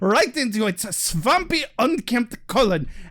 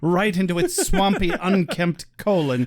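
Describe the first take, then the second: First: It is said with a put-on German accent. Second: It is said in the speaker's ordinary accent.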